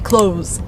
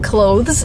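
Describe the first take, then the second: First: The th sound is left out completely. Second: The th sound is pronounced before the final s. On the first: "you just say clothes, just omitting the th sound completely" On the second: "instead of saying clothes"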